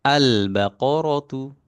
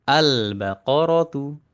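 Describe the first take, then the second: The two takes are said the same way.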